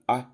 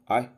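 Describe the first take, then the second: First: The vowel is kept short. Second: The vowel is kept short.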